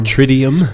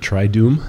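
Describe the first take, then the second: First: The second syllable has an 'ee' vowel. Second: The second syllable has an 'oo' vowel. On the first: The speaker calls it wrong. "Or Tridium?" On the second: The speaker calls it right. "Is this pronounced the Triduum?"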